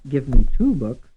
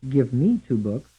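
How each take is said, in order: First: The stress is on the word two. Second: The stress is on the word me.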